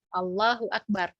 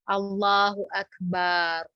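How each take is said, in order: First: The last syllable of Akbar has a short vowel. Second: The last syllable of Akbar has a long vowel. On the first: God is greatest. The speaker calls it right. "kalau bahasa takbir itu kan Allahu Akbar" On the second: It turns into the word for drum. The speaker calls it wrong. "dengan memanjangkan baknya"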